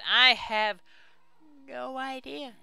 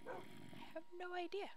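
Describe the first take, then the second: First: Clueless admission. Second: Very soft, high, slower squeak; tiny-voiced admission. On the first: Admitting ignorance to viewers. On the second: Player clueless about the waiting time, tiny high voice. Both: Real, not acted.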